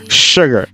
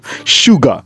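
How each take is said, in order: First: The name ends with an r sound. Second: The name ends on a plain vowel. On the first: The speaker calls it wrong. "I was calling him Sugar instead of Suga" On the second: The speaker calls it right. "Suga, which is shooting guard"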